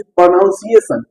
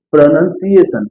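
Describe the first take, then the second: First: प्रोनाउंसिएशन mispronounced with an "ow" vowel after the N; wrong pronunciation. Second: प्रोनाउंसिएशन with a short vowel, no "noun" sound; correct pronunciation. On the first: Retold or imitated. Teacher imitates other school teachers, wrong pronunciation. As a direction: say प्रोनाउंसिएशन with "NOUN" in the middle, pro-noun-si-ation. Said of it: "teacher आपको मिलेंगे जो क्या कहेंगे".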